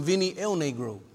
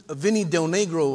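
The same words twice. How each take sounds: First: "El Negro" with no D at the start; dropped D. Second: Said in the usual way. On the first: Shown as a demonstration. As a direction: say "El Negro", leaving off the D of Del. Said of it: "'cause he never played no D". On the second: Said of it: "I used to call him".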